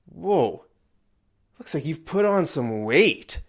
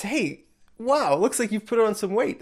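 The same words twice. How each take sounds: First: A taken-aback "Whoa", slowed with pauses; disapproving, rude. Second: Much higher, quick and delighted; excited congratulation. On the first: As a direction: let the remark sound like a bad thing. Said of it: "that would be bad". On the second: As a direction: gush over it like great news. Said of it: "I'm congratulating you". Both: Shown as a demonstration.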